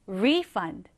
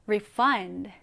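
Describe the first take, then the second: First: Refund as RE-fund, the noun form; stress on first syllable. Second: Refund as re-FUND, the verb form; stress on second syllable. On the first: Teacher contrasts the noun refund for learners, stressed on RE. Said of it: "이렇게 발음하시면 됩니다". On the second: Teacher contrasts the verb refund for learners, stressed on FUND. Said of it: "환불하다라는 의미일 때는". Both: Shown as a demonstration.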